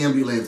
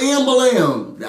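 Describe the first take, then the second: First: Said in the usual way. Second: "ambulance" as "AM-buh-lam", higher, final "ce" dropped; comic mispronunciation. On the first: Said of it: "I know how to say ambulance". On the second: Pretend. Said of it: "I know how to say ambulance, but".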